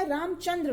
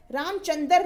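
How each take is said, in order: First: Said in the usual way. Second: रामचंद्र as ram-chan-dar; wrong pronunciation. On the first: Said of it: "रामचंद्र होता है". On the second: Shown as a demonstration. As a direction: put a vowel before the last r of रामचंद्र. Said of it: "रामचंद्र नहीं होता".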